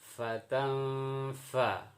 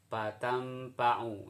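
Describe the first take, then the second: First: It is said with an f sound. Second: It is said with a p sound. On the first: The speaker calls it right. "Fatam fa ya, bukan pa" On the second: The speaker calls it wrong. "di kampung kampung sono, yang belum belajar makharijul huruf"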